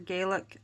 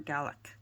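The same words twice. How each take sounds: First: The first syllable sounds like 'gay'. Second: The first syllable sounds like 'gal'. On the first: This is the Irish way of saying it. "the Irish are Gaelic" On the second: This is the Scottish way of saying it. "the Scots are Gaelic"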